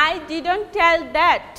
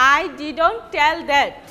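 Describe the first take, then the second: No difference in how they are said.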